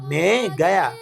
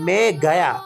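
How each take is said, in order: Both takes have the same delivery.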